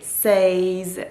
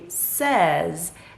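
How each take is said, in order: First: The vowel sounds like the one in 'say'. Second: The vowel sounds like the one in 'said'. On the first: The speaker calls it wrong. "you don't say says" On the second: The speaker calls it right. "you say says. That is the proper way to pronounce this word"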